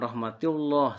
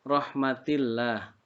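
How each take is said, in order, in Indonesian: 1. Suku kata terakhir dibaca tebal dan penuh. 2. Suku kata terakhir dibaca tipis dan ringan.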